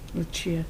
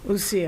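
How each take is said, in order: First: The middle consonant is a 'ch' sound. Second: The middle consonant is not a 'ch' sound. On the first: The speaker calls it wrong. "the Italian way was a ch" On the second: The speaker calls it right. "She pronounces it Lucia"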